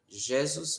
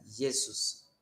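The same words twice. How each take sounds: First: The word begins with a zh sound. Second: The word begins with a y sound. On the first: The speaker calls it wrong. "em vez de pronunciar Jesus" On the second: The speaker calls it right. "vai pronunciar Jesus"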